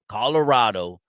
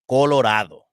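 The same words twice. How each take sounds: First: It is said with an American English pronunciation. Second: It is said with a Spanish pronunciation. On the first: "I'm gonna say like the Gavachos say it" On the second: "Let's say it right. Let's say the way the Raza says it"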